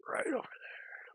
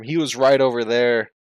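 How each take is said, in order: First: "Right over there" whispered slowly and much higher, breathy echo. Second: "right" pressed firmly, louder, falling at the end; emphatic "right over there"; stress on RIGHT. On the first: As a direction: echo it back in a slow secret whisper. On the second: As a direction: point it out proudly with "right". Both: Shown as a demonstration.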